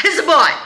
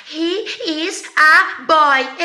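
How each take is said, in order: First: Put-on "He's a boy" run together, louder; natural contraction. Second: Put-on "He is a boy" dragged out word by word, high; very slow, higher, every word of "He is a boy" separate; mock over-articulation. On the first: Teacher correcting how the American will say it, contracted. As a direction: punch out "He's a boy" as one quick linked unit. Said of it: "Não, o cara vai falar". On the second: Teacher mocking what students expect Americans to say, exaggeratedly slow. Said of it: "Você acha que o americano vai falar". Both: Shown as a demonstration.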